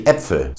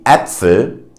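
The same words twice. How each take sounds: First: Äpfel said epfel; Äpfel, e sound. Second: Äpfel with an open ae; textbook Ä. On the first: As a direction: say Äpfel with a plain E. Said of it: "I kinda make it like an E sound". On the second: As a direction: say Äpfel with broad ae. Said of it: "It would have to be Äpfel". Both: Shown as a demonstration.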